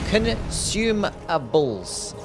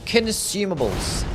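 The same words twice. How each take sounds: First: The word is said slowly, syllable by syllable. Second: The word is said quickly and run together. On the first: The speaker calls it right. "That's better" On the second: The speaker calls it wrong. "even when I try to sound it out slowly, I still say it fast"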